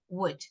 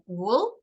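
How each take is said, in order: First: The word sounds like would. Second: The word sounds like wool. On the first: The speaker calls it right. "we say would" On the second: The speaker calls it wrong. "Instead of uh, wool"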